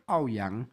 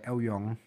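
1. Marga Ouyang diucapkan dengan cara Hokkien atau Teochew. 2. Marga Ouyang diucapkan dengan cara Hakka. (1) "dialek Hokkien dan Teochew menyebutnya sebagai" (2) "Hakka menyebutnya sebagai"

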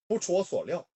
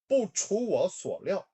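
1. 이 구절은 빠르게 발음돼요. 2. 이 구절은 천천히 발음돼요. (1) "3단계" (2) "1단계"

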